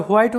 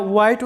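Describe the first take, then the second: First: হোয়াইট said "wait", starting on w; হোয়াইট begins with a rounded w; second accepted way. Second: হোয়াইট said "ait", with no w; হোয়াইট begins on a bare vowel; first accepted way. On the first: Teacher gives the second way to say হোয়াইট. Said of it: "দুটোই সঠিক". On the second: Teacher gives the first way to say হোয়াইট. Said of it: "এটা হোয়াইট উচ্চারণ করতে পারো". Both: Shown as a demonstration.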